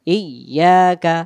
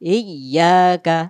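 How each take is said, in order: No difference in how they are said.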